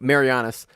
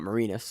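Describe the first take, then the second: First: The name is said like Marianas Trench. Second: The name is said as Marinas, shorter. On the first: The speaker calls it right. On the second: The speaker calls it wrong.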